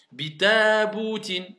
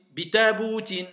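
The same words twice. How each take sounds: First: "Bitaboutin" slow, loud, every vowel kept; slow model. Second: "bitaboutin" quicker but every vowel kept; faster read with vowels. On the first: Teacher showing full vowels to the class. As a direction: read "Bitaboutin" deliberately, vowels intact. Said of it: "Même si je lis vite". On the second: Teacher shows fast reading keeping vowels. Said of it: "Même si je lis vite, j'ai gardé les voyelles". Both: Shown as a demonstration.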